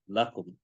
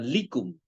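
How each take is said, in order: First: The first vowel is an a sound. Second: The first vowel is an i sound. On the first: The speaker calls it right. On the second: The speaker calls it wrong. "bukan likum"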